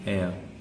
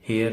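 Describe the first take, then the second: First: The word begins without an h sound. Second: The word begins with an h sound. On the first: The speaker calls it right. "इसको हम पढ़ेंगे एयर" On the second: The speaker calls it wrong. "हेयर नहीं इसको बोलेंगे"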